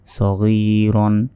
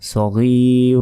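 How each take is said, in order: First: The word ends with a short n sound. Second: The word ends with a lengthened vowel. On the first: The reader continues without stopping. "এখানে কিন্তু টেনে পড়া যাবে না" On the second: The reader stops at this word. "যখনই আপনি এখানে থামবেন তখনই এখানে এক আলিফ টান হবে"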